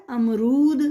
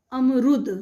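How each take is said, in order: First: अमरूद with a long drawn ऊ on रू; teacher gives the correct long-u reading to the kids; long u in amrud. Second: अमरुद with a short clipped u on रु; teacher demonstrates the wrong short-u reading; short u in amrud. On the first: बड़े ऊ वाला अमरूद. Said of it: "र पर कौन सी मात्रा लगेगी? बड़े ऊ". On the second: छोटे उ वाला अमरुद. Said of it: "छोटे ऊ की मात्रा र पर लगाकर". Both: Shown as a demonstration.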